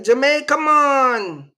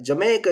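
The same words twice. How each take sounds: First: High, louder, amazed echo of Jamaica; mock girl echoing Jamaica. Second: Said in the usual way. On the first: The store girl echoes his answer, high and amazed. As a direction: repeat Jamaica back like the impressed girl. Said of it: "and she like". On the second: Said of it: "I'm like".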